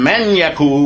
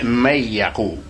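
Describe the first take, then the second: First: The n is clearly pronounced before yaqul. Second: The n merges into the y sound. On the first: The speaker calls it wrong. "instead of saying man Yakul" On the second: The speaker calls it right. "we say may Yakul"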